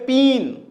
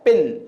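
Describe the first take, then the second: First: The vowel is long, like in 'seen'. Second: The vowel is short, like in 'sit'. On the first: The speaker calls it wrong. "That would be wrong pronunciation" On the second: The speaker calls it right. "पिन, पिन, right?"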